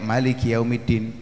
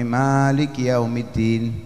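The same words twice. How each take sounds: First: The first vowel of maliki is kept short. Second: The first vowel of maliki is drawn out long. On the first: "qiraah yang lain membacanya pendek" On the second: "kita membacanya biasanya panjang"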